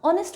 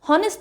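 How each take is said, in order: First: The word begins directly with a vowel sound. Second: The word begins with a breathy h sound. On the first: The speaker calls it right. "ऑनेस्ट होता है" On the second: The speaker calls it wrong. "हॉनेस्ट pronunciation नहीं होता"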